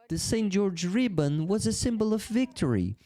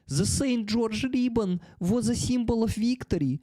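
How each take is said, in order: First: It is said in a neutral accent. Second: It is said in a Russian accent. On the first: "I forgot the Russian accent" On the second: "the Russian accent"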